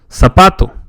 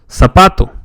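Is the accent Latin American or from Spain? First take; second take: Latin American; Latin American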